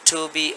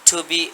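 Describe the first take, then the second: No difference in how they are said.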